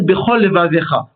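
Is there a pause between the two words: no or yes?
no. The two words run together without a pause. It sounds as if only one lamed were there. The speaker calls it wrong. "Il ne faut pas coller les deux mots. Il ne faut pas dire"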